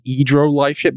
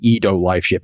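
First: "Edo" said with an r, as EE-dro; correct name. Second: "Edo" said without an r, as EE-doh; misheard name. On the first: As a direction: put an r before the final o of "Edo". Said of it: "but at first I, I misheard it". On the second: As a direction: leave "Edo" as plain EE-doh, no r. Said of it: "I misheard it". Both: Shown as a demonstration.

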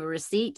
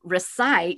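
First: "recite" slipped into "re-SEET"; mispronounced recite. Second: "recite" said as "re-SITE"; corrected recite. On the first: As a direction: say "recite" with an EE in the second syllable. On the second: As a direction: say "recite" with a long I, like "sight". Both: Real, not acted. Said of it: "excuse me".

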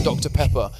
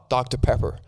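First: Said in the usual way. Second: An English speaker's try at American; attempted American accent. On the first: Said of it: "when I say Doctor Pepper ... in an American accent". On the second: English guest ordering so Americans understand, attempted American accent. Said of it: "try and say it in an American accent".

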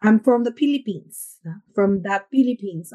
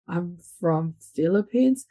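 First: Hard Tagalog-style English, P for the F in Philippines; hard Filipino accent. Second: Said in the usual way. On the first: Shown as a demonstration. Showing the accent people expect of Filipinos, hard Tagalog accent. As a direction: demonstrate a firm Filipino accent, hard consonants. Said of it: "still yung matigas na parang Tagalog". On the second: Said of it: "your accent na sinasabi nila".

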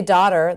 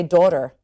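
First: Said in the usual way. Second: Daughter with a rounded AW vowel; Delco "daughter". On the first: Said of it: "they don't say daughter". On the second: Shown as a demonstration. Explaining the accent to the interviewer, Delco daughter. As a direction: say daughter the Delaware County way. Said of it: "They say daughter".

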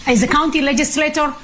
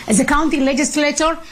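Both takes have the same delivery.

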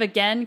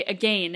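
First: "again" said to rhyme with "pen"; American "again". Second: "again" said to rhyme with "rain"; Canadian "again". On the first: American transplant showing her own word, American "again". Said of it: "instead of again, Canadians say again". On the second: American transplant showing how Canadians say it, Canadian "again". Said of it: "Canadians say again". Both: Shown as a demonstration.

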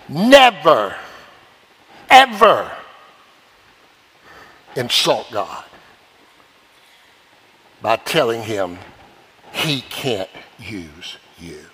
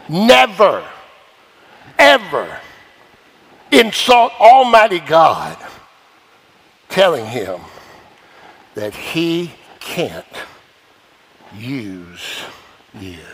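First: Each word set apart with long pauses, Never and ever stressed; preacher drives it home word by word; slow emphatic warning. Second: Never and ever stressed again, Almighty God drawn out, fading to a hush on use you; slower emphatic repeat. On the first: Preacher warning the congregation, slow and emphatic. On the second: Preacher repeating the warning to the congregation, heavier and fading. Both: Shown as a demonstration. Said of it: "Let me say that again".

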